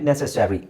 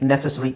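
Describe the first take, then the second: First: The word is said in an American accent. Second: The word is said in a British accent. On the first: "American ಇಂಗ್ಲೀಷಲ್ಲಿ ನೆಸೆಸರಿ ಅಂತಾರೆ" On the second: "British ಇಂಗ್ಲೀಷಲ್ಲಿ ನೆಸೆಸರಿ ಅಂತಾರೆ"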